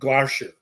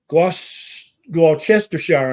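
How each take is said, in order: First: The middle syllables are dropped from the word. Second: Every written syllable is pronounced in full. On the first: The speaker calls it right. "they tend to forget to pronounce the middle few syllables" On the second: The speaker calls it wrong. "I'm sure that's not how you pronounce it"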